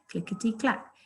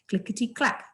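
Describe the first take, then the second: First: It is said slowly. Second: It is said fast.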